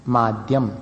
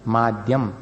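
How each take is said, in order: The two takes are said the same way.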